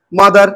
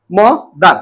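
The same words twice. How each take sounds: First: Said in the usual way. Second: "মদার" broken in two, a short gap between the parts; split into syllables. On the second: Shown as a demonstration. Teacher showing a two-syllable word, "মদার" split in two. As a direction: say "মদার" as two separate beats. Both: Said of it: "দুটো সিলেবেলে উচ্চারণ করছি".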